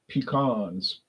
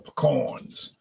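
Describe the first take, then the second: First: It is said in the speaker's usual pronunciation. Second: It is said in a Louisiana regional pronunciation.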